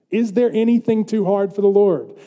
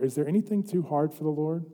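First: Raised, ringing challenge; forceful preacher's repeat; emphatic question. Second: Softly posed, hushed question; subdued, reflective preacher's question; quiet question. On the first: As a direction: proclaim the question to the congregation. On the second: Question first posed softly, then proclaimed. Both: Real, not acted.

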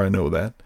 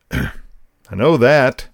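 First: Said in the usual way. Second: Each word slow and weighty, I know that; slow stern reply. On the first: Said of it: "He added a couple other little expletives before". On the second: Retold or imitated. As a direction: drag out I know that like a stern dad.

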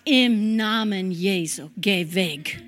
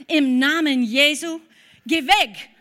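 First: Lower, firm rebuke in Jesus' name. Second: Loud, forceful rebuke in Jesus' name; commanding rebuke. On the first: To the returning man, a lower, firm rebuke. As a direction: settle low and hold your ground. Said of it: "Und habe ich gesagt". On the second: To the shouting man in the car park, a loud rebuke. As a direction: order the stranger away with full force. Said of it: "Und das zweite Mal habe ich gesagt". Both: Retold or imitated.

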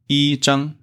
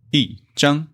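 First: 一张 with 一 held high and level; 一 in first tone. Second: 一张 with 一 falling sharply from high; 一 in fourth tone. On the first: Teacher shows students the unchanged tone, 一 high and level in 一张. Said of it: "instead of 一张, because 张 is first tone". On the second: Teacher corrects the tone rule example, 一 falling before high 张. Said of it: "changed to fourth tone, so it should be". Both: Shown as a demonstration.

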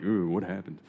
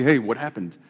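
First: Soft, sympathetic "Ooh, what happened"; concerned. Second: Casual, offhand "what happened"; casual greeting. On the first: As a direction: ask gently, full of concern. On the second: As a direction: toss it off like a hello. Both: Shown as a demonstration. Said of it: "depending on the inflection".

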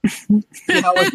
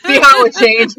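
First: Slow, high, lightly seductive line. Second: Laughing. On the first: Acted. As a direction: draw the words out to tempt her. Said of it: "he said sound seductive". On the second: Real, not acted.

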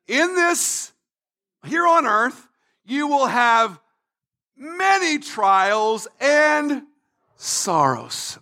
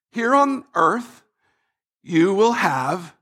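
First: Weighty, phrase-by-phrase declaration; Jesus speaking. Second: Slow, halting reading that breaks off; reluctant reading. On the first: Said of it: "Jesus is talking now". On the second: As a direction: read it reluctantly, stalling before the unwelcome word. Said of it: "the phrase we do not like". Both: Acted.

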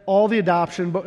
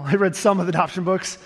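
First: All hit firmly and louder; stress on all. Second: Some stressed and rising, said a bit fast through a laugh. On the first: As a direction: lean hard on all, then the rest lightly. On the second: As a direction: correct yourself by punching some. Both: Shown as a demonstration. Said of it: "I didn't read them all".

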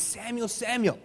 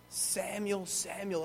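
First: Higher-pitched call of a name. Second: Soft, drawn-back call of a name; hushed calling voice. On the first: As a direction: lightly call out to a sleeper. Voice calls sleeping boy second time. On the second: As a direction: call gently to a sleeper. Voice calls boy third time. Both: Acted.

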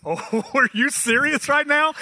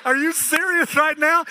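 First: Laughing disbelief. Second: Incredulous exclaim. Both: Retold or imitated. Incredulous reply to wife.

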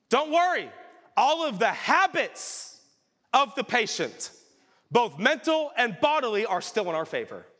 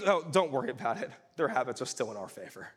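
First: Mock reassuring devil. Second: Offhand devil. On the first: Preacher voices Screwtape soothing the tempter, hammed-up devilish reassurance. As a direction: savour each word like a sly demon. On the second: Retold or imitated. Preacher retells the devil's casual dismissal, quick offhand mumble. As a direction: toss it off like it's nothing. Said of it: "he goes".

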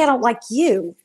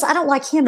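First: Said in the usual way. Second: "him" stressed, "I don't like" plain. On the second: Shown as a demonstration. Explaining to the team who the spirit meant, pushing "him". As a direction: lean on "him", not "I don't like you". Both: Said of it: "It didn't say".

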